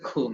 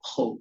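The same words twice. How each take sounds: First: The consonant sounds light, like the Bengali sound. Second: The consonant sounds heavy and thick. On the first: The speaker calls it wrong. "বাংলার মতো করে খু নয়" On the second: The speaker calls it right. "খু একটুখানি মোটা হবে"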